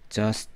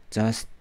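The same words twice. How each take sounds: First: "just" as one syllable, no vowel after t; closed ending. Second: "just" as jeo-seu-teu; added eu vowel. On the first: Teacher contrasting with learners' habit, "just" in one syllable. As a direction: end "just" on the consonants. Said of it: "우리는 just 안 하고". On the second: Teacher imitating learners' habit, "just" with an added vowel. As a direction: put an "eu" after the final t of "just". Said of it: "을을 넣으려고 하는 경향". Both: Shown as a demonstration.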